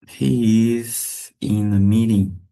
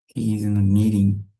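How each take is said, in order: First: Stretched "He is", then a small pause; slow, deliberate language-drill delivery; slow model sentence. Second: Said in the usual way. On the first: Shown as a demonstration. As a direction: draw it out for learners. Teacher models slowly, then at usual pace.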